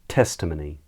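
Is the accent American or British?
British. It is said in a British accent.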